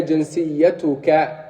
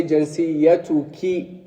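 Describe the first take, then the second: First: جنسيتك ending in -ka for a man; masculine ending. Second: جنسيتك ending in -ki for a woman; feminine ending. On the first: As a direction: say جنسيتك with final -ka. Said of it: "For masculine, we say". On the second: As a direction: say جنسيتك with final -ki, slowly. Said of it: "For feminine, we'll say". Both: Shown as a demonstration.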